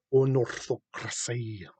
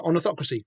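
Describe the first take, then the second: First: Put-on "Unorthocracy" drawn out slowly, Elvish accent. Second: Said in the usual way. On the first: Host savouring the name in a slow Elvish accent. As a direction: stretch "Unorthocracy" out like an elf lord. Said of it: "like, an Elvish accent". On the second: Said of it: "you wanna say it in".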